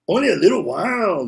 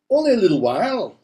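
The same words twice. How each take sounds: First: It is said in a put-on Mexican accent. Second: It is said without a Mexican accent.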